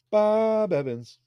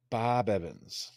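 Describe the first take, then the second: First: "Bob Evans" pitched much higher, slow; high slow take. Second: "Bob Evans" slow and low, quieter; low slow take. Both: Shown as a demonstration. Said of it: "I don't know if that's how you say it".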